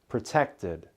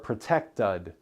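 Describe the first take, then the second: First: The last syllable has a short i vowel. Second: The last syllable has a schwa vowel. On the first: The speaker calls it right. "The vowel sound is closer to a short I sound" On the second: The speaker calls it wrong. "We don't say molded or protected"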